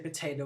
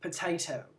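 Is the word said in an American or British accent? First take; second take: American; British. First: It is said in an American accent. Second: It is said in a British accent. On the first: "we'll say" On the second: "they say"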